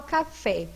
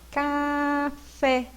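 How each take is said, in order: First: Said in the usual way. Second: CAFÉ split slowly into a long CA, then FÉ; syllables drawn out. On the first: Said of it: "qual é a sílaba mais forte". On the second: Shown as a demonstration. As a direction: stretch café syllable by syllable to show the stress. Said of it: "Qual é a mais forte?".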